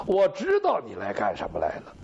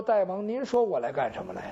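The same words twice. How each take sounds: First: Low menacing growl, savouring what he knows; knowing, menacing king. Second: The minister asks back softly and humbly, a touch lower; bowed courtier coaxing the king with a quiet question; meek minister. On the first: The king, bow drawn, to the minister: deep ominous threat. King answers his own question. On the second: The kneeling minister to the armed king: soft humble question. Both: Acted.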